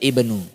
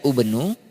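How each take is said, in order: First: The word begins with an i vowel. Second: The word begins with a u vowel. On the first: The speaker calls it right. "tapi dibaca ibenu" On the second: The speaker calls it wrong. "Tidak dibaca ubenu"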